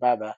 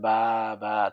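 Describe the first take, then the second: First: The two syllables are said quickly without a pause. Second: The two syllables are said slowly with a pause. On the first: The speaker calls it right. "তাড়াতাড়ি করতে হয়" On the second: The speaker calls it wrong. "এখন কেউ যদি বলে বা, বা তাহলে হবে না"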